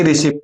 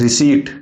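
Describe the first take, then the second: First: "रिसिप्ट" with short i and sounded p; wrong pronunciation of receipt. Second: "रिसीट" with long ee and silent p; correct pronunciation of receipt. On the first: Teacher showing learners what to avoid, mispronounced. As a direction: say "रिसिप्ट" wrongly, ending in "-ipt". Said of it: "ना कि". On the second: Teacher giving learners the right form, correctly pronounced. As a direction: say "रिसीट" cleanly, ending in "-seet". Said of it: "ना कि रिसिप्ट". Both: Shown as a demonstration.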